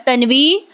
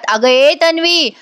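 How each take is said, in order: First: Said in the usual way. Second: Higher, slow drawn-out call of अगं ए Tanvi; mock yelling Tanvi to get her attention; calling out loudly. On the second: (मोठ्याने हाक मारणं) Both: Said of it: "आता या जोरात ओरडतात".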